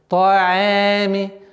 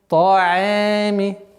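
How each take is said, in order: No difference in how they are said.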